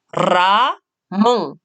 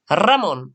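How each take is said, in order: First: The word is split into two separate syllables. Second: The word is said smoothly as one unit. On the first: "j'ai essayé de couper en deux syllabes le mot" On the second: "Et en un seul mot"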